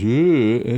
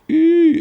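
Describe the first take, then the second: First: It is produced in chest voice. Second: It is produced in head voice.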